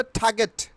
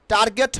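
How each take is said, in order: First: "টার্গেট" with aspirated t, no r; corrected pronunciation. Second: "টার্গেট" with hard t and sounded r; mistaken pronunciation. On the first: Teacher answering her own quiz, corrected pronunciation. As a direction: say "টার্গেট" as "thaa-get". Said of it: "কি হবে?". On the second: Teacher naming the wrong form, mistaken pronunciation. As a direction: say "টার্গেট" as "tar-get". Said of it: "টার্গেট হবে না". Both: Shown as a demonstration.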